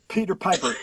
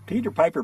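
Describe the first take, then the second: First: It is said plainly with strong puffs of air. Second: It is said smiling with softened puffs of air. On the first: The speaker calls it wrong. "You can feel the air on your hand" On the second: The speaker calls it right. "But if you smile, smile"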